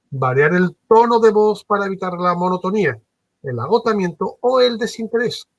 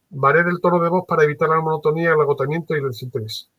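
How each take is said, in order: First: Lively pitch, rising higher at the end; varied tone. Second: Flat, rushed, fast read; monotone. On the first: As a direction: swing the pitch up and down to keep it lively. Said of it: "Fijaros lo que acabo de decir". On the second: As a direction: rattle it off in one tone. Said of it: "Lo voy a decir ahora, pues, monótono". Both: Shown as a demonstration.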